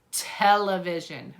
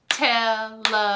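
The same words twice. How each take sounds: First: Said in the usual way. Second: Television broken into four separate, even beats; clapped-out syllables. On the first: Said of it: "clap out the word". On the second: Shown as a demonstration. Teacher clapping out the word for children, Television in four separate syllables. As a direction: chant Television syllable by syllable, gaps between, on one level note. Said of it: "see if you can clap out the word".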